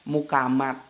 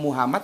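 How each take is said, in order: First: It has a 'k' sound and ends in 't'. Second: It has an 'h' sound and ends in 'd'. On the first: "Lidah Jawa kan gitu" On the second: "Lidah Jawa kan gitu, ngomong Muhammad mana bisa"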